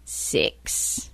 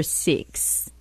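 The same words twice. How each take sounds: First: "six" said with New Zealand vowel, soft; soft demo of "six" in Kiwi accent. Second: Said in the usual way. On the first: Shown as a demonstration. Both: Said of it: "a New Zealander would say".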